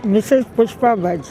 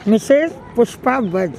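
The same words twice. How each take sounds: The two takes are said the same way.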